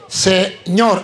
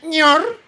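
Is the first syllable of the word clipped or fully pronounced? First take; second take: fully pronounced; clipped. First: All syllables are said, starting with 'se'. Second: The first syllable is dropped, leaving only 'ñor'. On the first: The speaker calls it right. "Para usted decir Señor" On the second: The speaker calls it wrong. "Si usted no dice bien la fórmula, dice Ñor"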